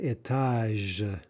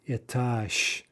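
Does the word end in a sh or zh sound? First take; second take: zh; sh. First: The word ends with a voiced zh sound. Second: The word ends with a voiceless sh sound. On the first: The speaker calls it wrong. "It's not étage" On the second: The speaker calls it right. "but étage, sh"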